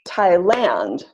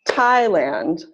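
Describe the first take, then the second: First: The stress is on the second syllable. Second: The stress is on the first syllable. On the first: The speaker calls it wrong. "or is it stress on the second syllable" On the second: The speaker calls it right. "Is it stress on the first syllable"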